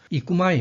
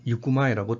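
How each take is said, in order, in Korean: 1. 이 단어는 'ee' 소리로 시작합니다. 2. 이 단어는 'yoo' 소리로 시작합니다. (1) "이꾸마이 해도 되지만" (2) "유꾸마이라고 대화체에서 이렇게 쓸 수가 있습니다"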